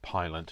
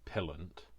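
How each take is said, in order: First: The first vowel is a long 'eye' sound. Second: The first vowel is a short 'i' sound. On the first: This is how the owner says her own name. "she calls herself Pylant" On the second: This is how British speakers would say it. "in British English we would say Pillant"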